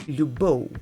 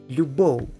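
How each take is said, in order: No difference in how they are said.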